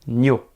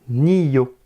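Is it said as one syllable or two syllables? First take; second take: one syllable; two syllables. First: The sounds merge into one single syllable. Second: A clear i sound comes before yo. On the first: "je veux dire nyo. Vraiment, combiner le son" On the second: "Nous entendons bien le i avant le yo"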